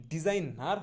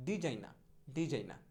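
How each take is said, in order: First: Said in the usual way. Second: ডিজাইনা ending in open "naa", no r; corrected pronunciation. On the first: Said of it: "ডিজাইনার হবে না". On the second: Shown as a demonstration. Teacher drilling designer with learners, r-less ডিজাইনা. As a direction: drop the final r of ডিজাইনা. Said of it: "কখনোই".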